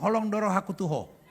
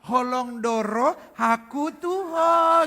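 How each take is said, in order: First: It is said flat and blunt, without sweetness. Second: It is said in a sweet, sugary tone.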